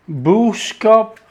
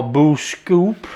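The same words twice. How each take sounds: First: Boskop said anglicised, short o, slow; Boskop, English style, stress on the first syllable. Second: Boskoop said the Dutch way, long oo, slow, rising. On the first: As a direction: say Boskop as plain English, BOSS-kop. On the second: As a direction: stretch Boskoop as BOOS-koop with a rising end. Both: Shown as a demonstration. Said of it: "however way you pronounce it".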